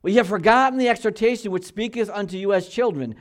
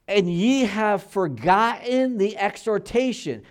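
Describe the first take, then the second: First: Louder and higher, "ye have forgotten the exhortation" read at a steady pace; scripture reading at preaching pace. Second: Put-on slow and higher, drawing out "exhortation" like an old prophet; slow solemn scripture reading. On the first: Pastor to his church, reading the verse straight through. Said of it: "now he's quoting back to Proverbs". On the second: Pastor to his church, intoning scripture slowly and gravely. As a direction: let "ye have forgotten the exhortation" hang slowly and gravely. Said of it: "Now, what's he talking about?". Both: Shown as a demonstration.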